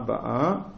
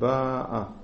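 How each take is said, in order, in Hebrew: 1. ההטעמה על ההברה האחרונה. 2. ההטעמה על ההברה הראשונה. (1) "ואז אנחנו נקרא לזה מלרע למטה" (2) "ואז זה מלעל"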